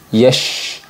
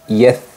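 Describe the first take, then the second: First: The consonant is an sh sound. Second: The consonant is a th sound. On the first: "tertukar dengan huruf shin yang berharokat sukun" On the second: "tertukar dengan huruf tha"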